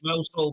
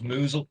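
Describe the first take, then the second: First: It is said like the two words mouse hole. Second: It is said as one short word, moozle. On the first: This is how the spelling looks. The speaker calls it wrong. "it looks like Mousehole" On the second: This is how the name is actually said. The speaker calls it right. "but I think it's pronounced Moozle"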